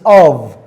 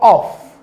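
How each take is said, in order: First: The word ends with a voiced v sound. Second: The word ends with a voiceless f sound. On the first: The speaker calls it right. "In v as in of" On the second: The speaker calls it wrong. "It is not of"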